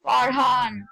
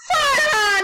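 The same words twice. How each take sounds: First: Said in the usual way. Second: High crying shout of the name; panicked shout. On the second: Real, not acted. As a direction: call him out in alarm, loud and high. Calling friend in game, panicked.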